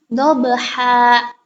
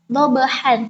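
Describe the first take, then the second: First: The word ends with a long a sound. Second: The word ends with an n sound. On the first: The speaker calls it right. "tapi dobha" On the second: The speaker calls it wrong. "bukan dobhan"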